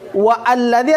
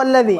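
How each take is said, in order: First: The 'a' of alladzi is pronounced separately. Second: The 'a' of alladzi is dropped and linked. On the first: The speaker calls it wrong. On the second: The speaker calls it right.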